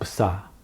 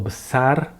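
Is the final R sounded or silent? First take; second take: silent; sounded. First: The final R is silent. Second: The final R is pronounced. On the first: The speaker calls it right. "It's just besar. ... The R is not sounded" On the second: The speaker calls it wrong. "not besar or besar"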